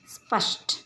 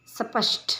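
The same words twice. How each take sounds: First: स्पष्ट with a tight "स्प" cluster; स्पष्ट said crisply, no added vowel; correct pronunciation. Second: स्पष्ट with added vowels, "सपष्ट"; स्पष्ट broken up as "स-प-ष्ट"; wrong pronunciation. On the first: (स्पष्ट का शुद्ध उच्चारण) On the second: (स्पष्ट का अशुद्ध उच्चारण, "सपष्ट") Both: Shown as a demonstration. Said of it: "इन शब्दों का उच्चारण करते हैं".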